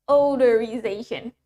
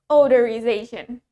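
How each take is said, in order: No difference in how they are said.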